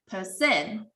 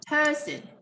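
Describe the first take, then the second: First: The stress is placed in a French-sounding way. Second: The stress is placed the usual English way. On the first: The speaker calls it wrong. "it more sounds like French. It's not in English" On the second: The speaker calls it right. "We stress at the red parts and you can see it's clear"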